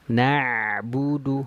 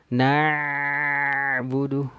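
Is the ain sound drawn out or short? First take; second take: short; drawn out. First: The ain sound flows only briefly, half-held. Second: The ain sound flows freely and is drawn out. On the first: The speaker calls it right. "kalau huruf yang tawassud berarti dia pertengahan, berarti setengah dari aliran" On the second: The speaker calls it wrong.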